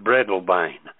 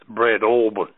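First: The name is pronounced just as it is spelled. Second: The name is not pronounced as it is spelled. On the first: The speaker calls it wrong. "I called it Breadalbane because I had a habit of pronouncing things phonetically" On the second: The speaker calls it right. "the name of the place is Breadalbane"

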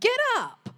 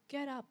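First: It is said harshly and forcefully. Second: It is said gently and kindly. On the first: It is a blunt command. "Like I would have said it" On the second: It is an invitation offered with grace. "I'm sure he was very gracious"

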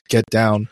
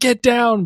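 First: The words are said slowly with low energy. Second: The words are said fast with high energy. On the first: Text to speech getting the inflection wrong. The speaker calls it wrong. "but then it's like get down" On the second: A real person shouting under fire. The speaker calls it right. "under fire, it's like get down"

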